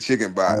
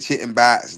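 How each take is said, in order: First: It is said in a plain general accent. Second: It is said in a local Baltimore accent. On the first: This is not how locals say it. "They don't say chicken box" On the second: This is how locals say it. "They say chicken box"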